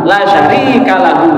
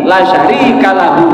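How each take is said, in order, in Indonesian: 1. Vokal pada 'la' dibaca pendek. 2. Vokal pada 'la' dibaca pendek.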